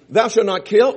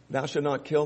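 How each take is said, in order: First: Loud, ringing proclamation of "Thou shalt not kill"; proclaimed commandment. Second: Said in the usual way. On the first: Shown as a demonstration. Preacher booming the commandment at the congregation. Quoting commandment, set against another take.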